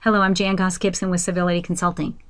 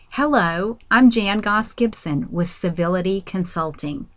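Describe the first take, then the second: First: It is spoken quickly and rushed together. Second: It is spoken slowly and clearly articulated. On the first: The speaker calls it wrong. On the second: The speaker calls it right.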